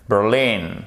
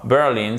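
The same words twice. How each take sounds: First: "Berlin" as "ber-LIN", second syllable stressed. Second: "Berlin" as "BER-lin", first syllable stressed; wrong stress. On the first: Teacher corrects learners' stress, second-syllable accent. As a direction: land firmly on "lin" in "Berlin". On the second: Teacher shows the mistake to avoid, first-syllable stress. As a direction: misplace the stress onto "Ber". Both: Shown as a demonstration. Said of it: "Accent tonique sur la seconde syllabe".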